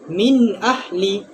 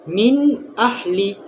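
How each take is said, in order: Both takes have the same delivery.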